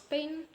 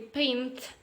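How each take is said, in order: First: The final t sound is left out. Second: The final t sound is pronounced. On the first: "we can pronounce as pain" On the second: "So actually paint"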